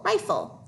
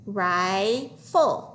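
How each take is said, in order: First: Said in the usual way. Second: "Rifle" stretched into rye, pause, full; syllable by syllable. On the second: Shown as a demonstration. Teacher decoding with pupils, syllable by syllable. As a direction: sound out "Rifle" in two slow parts. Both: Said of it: "Let's try to read that".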